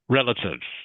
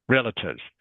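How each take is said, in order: First: The second vowel sounds like a short 'i'. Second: The second vowel sounds like a short 'i'.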